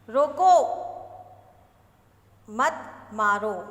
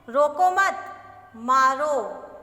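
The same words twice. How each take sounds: First: The pause comes after the first word. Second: The pause comes after the second word.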